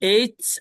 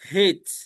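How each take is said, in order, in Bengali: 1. নামটি সরাসরি একটি স্বরধ্বনি দিয়ে শুরু হয়। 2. নামটি h ধ্বনি দিয়ে শুরু হয়। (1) "এটাকে এইচ" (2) "আর একটা বলা হয় হেচ"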